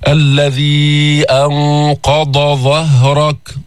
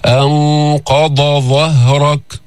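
First: أنقض ظهرك very slow, ض and ظ kept distinct; ḍād then ẓāʾ clearly separated. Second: أنقض ظهرك slow with ض and ظ each clear; slow, careful أنقض then ظهرك; distinct ḍād and ẓāʾ. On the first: Teacher showing how to keep ض and ظ apart, slow. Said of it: "ضاد بعدين ظاء". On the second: Teacher repeating the contrast of ض and ظ, slow. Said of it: "حتى ما يصير معك". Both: Shown as a demonstration.

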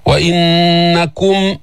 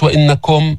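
First: Slow وإنكم, long hummed n, pure "kum"; clear damma on kaf. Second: وإنكم with a slack o for u, no held hum; unclear damma. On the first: Teacher models recitation, وإنكم ending in clear "kum". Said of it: "بين لي ضمة الكاف". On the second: Teacher shows the mistake, وإنكم as casual "innakom". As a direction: say وإنكم quickly, ending in loose "kom". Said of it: "مش وإنكم". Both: Shown as a demonstration.

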